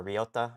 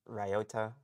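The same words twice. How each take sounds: First: Ryota said "ree-OH-ta"; REE-oh-ta pronunciation. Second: Ryota said "rye-OH-ta"; RYE-oh-ta pronunciation. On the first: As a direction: try Ryota with a first syllable like "ree", questioning. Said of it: "Or Ryota?". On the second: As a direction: try Ryota with a first syllable like "rye", questioning. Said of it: "I think I pronounced it as Ryota". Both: Shown as a demonstration.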